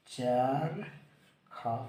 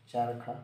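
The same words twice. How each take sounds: First: चरखा stretched very slowly, each syllable held; teacher slowly stretching चरखा for the class; drawn-out demo word. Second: Said in the usual way. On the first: Shown as a demonstration. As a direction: draw out चरखा so every syllable is heard. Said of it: "तो क्या लिखेंगे?". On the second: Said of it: "क्या लिख देंगे?".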